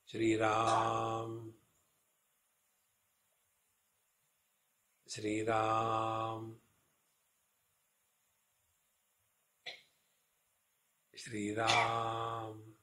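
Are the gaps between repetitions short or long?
long. The repetitions are separated by longer gaps.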